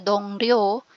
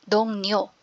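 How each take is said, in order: First: The second syllable begins with an R sound. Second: The second syllable begins with an N sound. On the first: The speaker calls it wrong. "hindi po siya Dong Ryo" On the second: The speaker calls it right. "kundi Dong Nyo"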